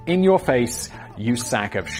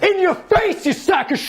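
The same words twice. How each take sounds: First: It is said at a normal volume. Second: It is screamed very loudly.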